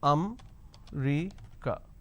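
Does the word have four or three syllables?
three. A syllable is dropped, giving three syllables. The speaker calls it wrong. "they pronounce this as um-ri-ca. So they drop a syllable"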